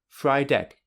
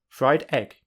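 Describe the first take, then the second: First: The d runs straight into the second word. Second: A short gap separates the two words. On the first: "with linking, there is no gap" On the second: "I will now say two words without linking"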